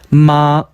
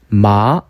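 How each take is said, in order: First: It is said with the first tone. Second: It is said with the second tone. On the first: "일" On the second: "이"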